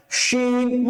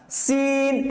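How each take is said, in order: First: শিন with a full, thick "sh" and held vowel; thick shin. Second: সিন with a thin hissed s and held vowel; thin sin. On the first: Teacher contrasts two letters for students, thick full শিন. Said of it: "মোটা করে". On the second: Teacher contrasts two letters for students, thin hissing সিন. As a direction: keep the s of সিন thin, like escaping air. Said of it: "পাতলা করে". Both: Shown as a demonstration.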